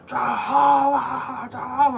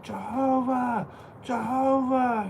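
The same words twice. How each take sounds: First: Slow, high, louder drawn-out yell. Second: Drawn-out high call across the lot; yelling out. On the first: Chasing the two bikers down, yelling the name louder and longer. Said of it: "I start yelling out louder". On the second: Shouting after the bikers across the parking lot, drawn-out high call. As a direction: call the name long and high. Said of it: "I start yelling out". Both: Retold or imitated.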